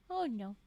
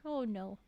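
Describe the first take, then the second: The two takes are said the same way.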